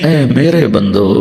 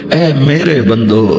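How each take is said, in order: The two takes are said the same way.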